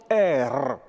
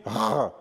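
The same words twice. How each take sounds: First: "R" said as a full "erre"; name the sound "R" with a long vowel; son R d'origine. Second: "R" as a bare throat rasp; French guttural "R", no vowel; R à la française. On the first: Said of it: "Il y a aussi le son". (« R » prononcé « erre ») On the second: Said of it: "qui devient R". (« R » raclé dans la gorge) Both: Shown as a demonstration.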